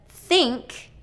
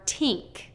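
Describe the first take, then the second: First: The word begins with a voiceless th sound. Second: The word begins with a t sound. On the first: The speaker calls it right. "the voiceless T H sound" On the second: The speaker calls it wrong. "or T"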